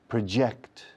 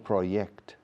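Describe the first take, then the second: First: The j is an English 'j' sound. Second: The j is not an English 'j' sound. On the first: The speaker calls it right. "La J de project suena como J en inglés" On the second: The speaker calls it wrong. "No project"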